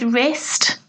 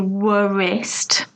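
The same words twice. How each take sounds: First: The W is not pronounced in the word. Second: The W is pronounced in the word. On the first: The speaker calls it right. "we don't pronounce the W" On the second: The speaker calls it wrong. "We don't say wrist"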